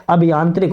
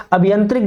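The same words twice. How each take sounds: First: अभियांत्रिक with a long "aa" in "yaan"; corrected pronunciation. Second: अभियंत्रिक with a short nasal "an" in the middle; misspelt word read out. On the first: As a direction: stretch the middle vowel of अभियांत्रिक to "yaan". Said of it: "अभियांत्रिक होता है". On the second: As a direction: say अभियंत्रिक with short "yan", not "yaan". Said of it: "अभियंत्रिक गलत लिखा है". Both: Shown as a demonstration.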